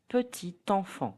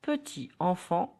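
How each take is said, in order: First: PETIT ENFANT linked, peti-tanfan; T of "petit" carried into "enfant"; liaison. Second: PETIT ENFANT apart, final T silent; "Petit enfant" unlinked, no linking T; no liaison. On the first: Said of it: "will be pronounced". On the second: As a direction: say "Petit enfant" as peti anfan. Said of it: "will be pronounced petit enfant". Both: Shown as a demonstration.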